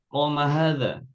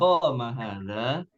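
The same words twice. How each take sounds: First: It is said with statement intonation. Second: It is said with question intonation.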